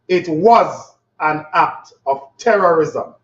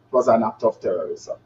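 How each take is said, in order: First: It is said with more confidence. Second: It is said with less confidence.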